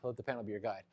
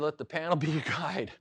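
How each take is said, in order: First: It is said in a put-on character voice. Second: It is said in an ordinary speaking voice. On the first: "in your best Yoda voice, say" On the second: "I always say"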